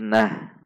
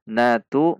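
First: The word ends with a soft h sound. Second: The word ends with a t and vowel.

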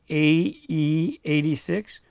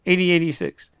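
First: Each letter and number is said slowly and separately. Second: It is run together quickly, like eighty-eighty-six.

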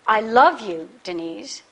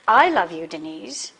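First: The stress falls on the word love. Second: The stress falls on the word I. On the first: The speaker feels love, not just liking. "I don't just like you" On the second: It is the speaker, not another man, who loves Denise. "not that other guy"

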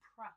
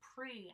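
First: The syllable has a reduced 'aw' vowel. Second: The syllable has a clear 'ee' vowel. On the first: The speaker calls it right. "I'm saying pra. Pra, this is an aw sound" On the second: The speaker calls it wrong. "I'm not saying pre"

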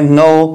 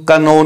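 First: The word begins with an n sound, no k. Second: The word begins with a k sound before n. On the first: The speaker calls it right. "इसीलिए हम इसको पढ़ते हैं नो" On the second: The speaker calls it wrong. "इसको का नो नहीं पढ़ते"

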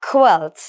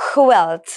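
No difference in how they are said.

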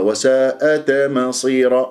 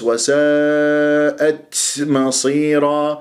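First: The final t is released with a bouncing echo. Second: The final t is released with a long hiss. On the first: "راح تقلقلها" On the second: "أو تبالغ في الهمس، وكأنه طلع حرف السين بالأخير منها، وهذه مبالغة مرفوضة"

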